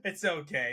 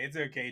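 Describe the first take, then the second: First: Said in the usual way. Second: "It's okay." said softer and falling; softer reassurance. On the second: Real, not acted. Podcaster half-apologising to Canadians, softer "It's okay.". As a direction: let "It's okay." drop quietly, reassuring. Soothing after the Canada joke.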